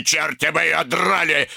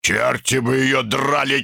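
First: Same oath higher and more heated; old Ruggles repeating his curse, angrier; louder curse. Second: Grandfather's grumbling oath; old Ruggles cursing Ruby; muttered curse. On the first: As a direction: spit the curse out harder. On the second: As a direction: curse her under your breath. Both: A narrator's reading. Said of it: "повторил старый Рагглз".

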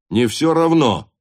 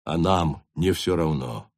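First: "не всё равно" raised high and loud; insistent repeat. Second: Low, restrained "не всё равно"; subdued emphasis. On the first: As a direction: ring out "не всё равно" forcefully. Captain insists, repeating the point. (громко, с нажимом: «не всё равно») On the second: Captain makes point, then repeats it louder. (сдержанно и низко: «не всё равно») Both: Acted.

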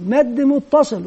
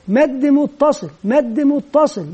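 First: Said in the usual way. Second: "مد متصل" said slowly and deliberately, each word laid out; slow teacher demo. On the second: Shown as a demonstration. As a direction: spell out "مد متصل" slowly for children to copy. (نطق بطيء واضح لـ"مد متصل") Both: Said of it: "ثم يضيف لها كلمة مد".

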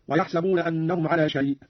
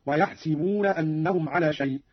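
First: Said in the usual way. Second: ويحسبون said slowly as "yahsibuna", with i; kasra on the sin. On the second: Shown as a demonstration. Teacher showing Qalun's reading, ويحسبون with "si" for "sa". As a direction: put an i after the s in ويحسبون. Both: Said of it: "قرأ قالون بكسر السين من يحسب".

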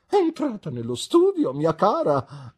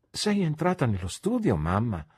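First: Much higher and louder, stressing "studio"; with emphasis. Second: Said in the usual way. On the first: A narrator's reading. Mother retorts to daughter with heavy emphasis. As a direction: hammer the words back emphatically. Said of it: "ribatté con enfasi". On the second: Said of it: "domandò Annie".

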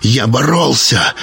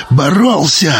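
First: Slower, understated «боролся»; first, restrained take of «боролся»; measured first statement. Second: «боролся» lifted higher; higher, more strained second «боролся»; intensified repeat. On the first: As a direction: say «боролся» slowly, holding back before the repeat. Struggle retold with repeated word. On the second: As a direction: push «боролся» up in pitch as the struggle mounts. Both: A narrator's reading.

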